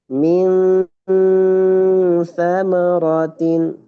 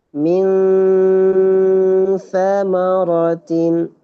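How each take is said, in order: Both takes have the same delivery.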